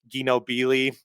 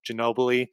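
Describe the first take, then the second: First: The name is split into two words. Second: The name is said as one word. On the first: The speaker calls it wrong. "mispronouncing names" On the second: The speaker calls it right. "you know"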